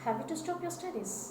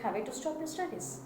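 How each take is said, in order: The two takes are said the same way.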